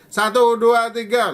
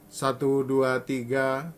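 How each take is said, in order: First: The counting is spoken even more loudly. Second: The counting is spoken at medium volume. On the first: "Lalu keras lagi" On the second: "Mungkin ini suara saya sedang"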